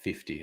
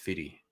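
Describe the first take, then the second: First: The middle f sound is pronounced. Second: The middle f sound is dropped. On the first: "it never pronounces it fifty" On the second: "It's always fitty"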